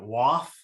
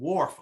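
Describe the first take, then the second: First: The word is said without an R sound. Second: The word is said with an R sound. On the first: This is the local accent. "pronounced it waff" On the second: This is the word as written. "the word wharf on a sign"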